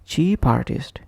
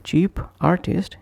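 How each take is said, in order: First: "cheap artist" run together as chee-partist; consonant linked to vowel. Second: "Cheap artist" with a break after p; separate words. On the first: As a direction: push the p onto "artist". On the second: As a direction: keep "Cheap" apart from "artist". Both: Shown as a demonstration. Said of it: "is pronounced as".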